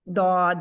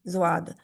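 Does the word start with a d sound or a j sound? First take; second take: d sound; j sound. First: The word starts with a heavy d sound. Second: The word starts with a soft j sound. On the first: The speaker calls it right. "जो अरबी का है वो दाद ही है" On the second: The speaker calls it wrong. "वो इस से मिल जाता है, जा से, जुवाद"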